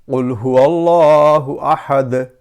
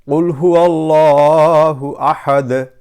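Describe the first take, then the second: No difference in how they are said.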